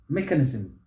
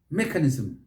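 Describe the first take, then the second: First: The stress is on the first syllable. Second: The stress is on the first syllable.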